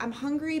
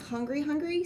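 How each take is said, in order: First: Said in the usual way. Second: Second "hungry" lifted on a rising tune; stress on doubled hungry. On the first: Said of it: "but I'm not, like, hungry, hungry". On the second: Shown as a demonstration. Telling friends she's not really that hungry, stressed. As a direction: lean into "hungry, hungry" to mean truly starving. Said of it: "but I'm not, like".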